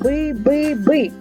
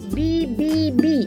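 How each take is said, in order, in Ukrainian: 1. Звук «б» твердий, не пом'якшений. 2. Звук «б» м'який, пом'якшений. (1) "твердо" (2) "м'яко"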